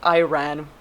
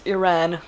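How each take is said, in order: First: The first vowel differs from the I in Italy. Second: The first vowel sounds like the I in Italy. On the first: The speaker calls it wrong. "not Iran" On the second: The speaker calls it right. "The I is supposed to be pronounced like Italy"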